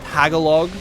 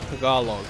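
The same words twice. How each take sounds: First: It is said with a heavily anglicized pronunciation. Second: It is said with a more native-like pronunciation. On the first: The speaker calls it wrong. "saying it like the whitest person on earth" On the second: The speaker calls it right. "you're meant to pronounce it Tagalog"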